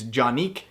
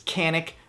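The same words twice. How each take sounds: First: It is said with a Turkish pronunciation. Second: It is said with an American English pronunciation. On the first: "the Turkish pronunciation is" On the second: "the American pronunciation is"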